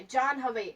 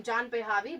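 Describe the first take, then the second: First: "John Javi" in two parts, with no extra syllable in between; correct name pronunciation. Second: "John Pahlavi" with an extra "pa" syllable in the middle; mispronounced name. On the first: Shown as a demonstration. Guest teaching her name, "John Javi" without an added syllable. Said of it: "But no, my name's is". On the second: Retold or imitated. Guest imitating people's mistake, "John Pahlavi" with an added syllable. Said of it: "Some people even call from this name".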